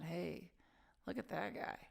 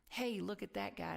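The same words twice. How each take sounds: First: It sounds pitying and looking down. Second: It sounds admiring and impressed.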